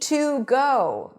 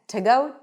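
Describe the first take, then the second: First: The word 'to' has a full long oo vowel. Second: The word 'to' is quick with a reduced vowel. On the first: "when you want to emphasize something" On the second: "when you say it quickly and it's unstressed"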